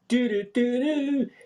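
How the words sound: It is said with a bright, happy tune. It conveys elation at seeing the sun. The speaker calls it right. "it sounds happy"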